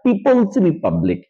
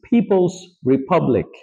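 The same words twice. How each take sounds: First: The p sounds are plain, without puffs of air. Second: The p sounds are aspirated with puffs of air. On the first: The speaker calls it wrong. "It's not পিপলস রিপাবলিক" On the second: The speaker calls it right. "So পটাকে ফ বানায় দেন"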